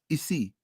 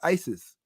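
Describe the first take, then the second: First: The word ends with a vowel sound. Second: The word ends with an s sound. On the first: The speaker calls it right. "The S on the N is silent. Isi. That's how you say it" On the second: The speaker calls it wrong. "that's an incorrect pronunciation"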